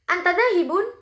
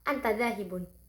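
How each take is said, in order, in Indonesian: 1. Nadanya naik di akhir. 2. Nadanya tetap datar sampai akhir. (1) "intonasi yang naik, e, yaitu di akhir kalimat dinaikkan" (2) "mengucapkan antadzahibun itu dalam keadaan datar"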